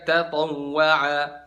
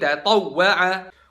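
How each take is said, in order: First: The doubled w is said smoothly, without a jolt. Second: The doubled w gets a slight emphatic jolt. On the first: The speaker calls it wrong. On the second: The speaker calls it right.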